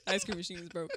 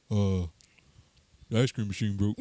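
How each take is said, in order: First: Drive thru speaker. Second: Fast food worker. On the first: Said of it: "And your line is". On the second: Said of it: "Do your best impression of a fast food worker". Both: Pretend.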